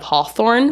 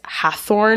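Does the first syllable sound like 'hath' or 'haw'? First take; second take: haw; hath. First: The first syllable sounds like 'haw'. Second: The first syllable sounds like 'hath'. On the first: The speaker calls it right. "instead of Hawthorne" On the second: The speaker calls it wrong. "I think a lot of people mispronounce it as Hathorne"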